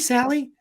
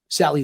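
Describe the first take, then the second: First: The pitch rises on the name. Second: The pitch falls on the name. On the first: The caller sounds nervous and unsure. The speaker calls it wrong. "everybody's voice goes up a, f- a few pitches" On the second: The caller is the confident authority. The speaker calls it right. "you want to inflect downwards because you're the authority"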